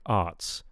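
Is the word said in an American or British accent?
British. It is said with a British accent. "for British, we'd want like arts"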